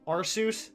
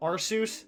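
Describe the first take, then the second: First: The word sounds like 'R' plus 'Seuss'. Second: The same.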